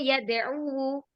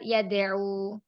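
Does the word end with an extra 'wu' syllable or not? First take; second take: extra syllable; no extra. First: The word ends with an extra 'wu' syllable. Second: The word ends without the extra syllable. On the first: This is how the form should be in theory. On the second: The ending is dropped because it is heavy to say. "karena berat"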